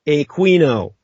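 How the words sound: The name is said the European way. "pronouncing it Aquino in the European fashion"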